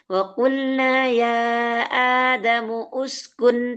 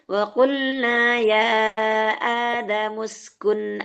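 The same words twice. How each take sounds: First: An extra vowel is voiced before skun. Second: Adamu runs straight into skun without a vowel. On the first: The speaker calls it wrong. "tidak boleh" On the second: The speaker calls it right. "kalau dibaca langsung"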